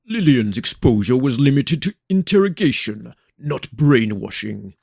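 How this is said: It is said in a put-on character voice.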